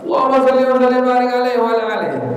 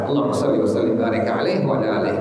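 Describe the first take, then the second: First: The phrase is shouted loudly. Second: The phrase is said quietly, just audibly. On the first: The speaker calls it wrong. "Enggak perlu apa?" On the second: The speaker calls it right. "Melebihi telinga kita mendengar"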